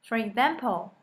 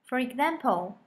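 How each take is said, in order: Both takes have the same delivery.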